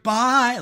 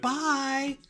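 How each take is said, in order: First: Very high, loud, cheery bye; enthusiastic goodbye. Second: Very high, sing-song bye; a gushing farewell to a regular; enthusiastic goodbye. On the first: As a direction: wave them off with huge enthusiasm. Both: Retold or imitated. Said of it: "Like, really into it".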